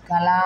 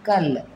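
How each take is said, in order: First: The word ends with a vowel sound. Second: The word ends with a consonant sound. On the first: The speaker calls it wrong. "పిల్లలకి పాపం తెలియక కా లా అన్నప్పుడు కళా అంటారు" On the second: The speaker calls it right. "Correct pronunciation పలకాలి మనం"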